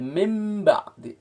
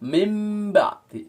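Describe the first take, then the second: Both takes have the same delivery.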